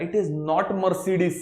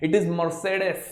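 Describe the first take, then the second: First: Mercedes said mer-see-dees, slowly; slow wrong version for contrast. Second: Mercedes said mer-tsay-des, German style. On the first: Teacher repeats the wrong version slowly for contrast. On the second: Teacher gives the German pronunciation. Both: Shown as a demonstration.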